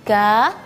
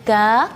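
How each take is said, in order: No difference in how they are said.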